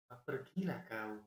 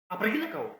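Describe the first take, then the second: First: It is said in a Javanese accent. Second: It is said in a Batak accent.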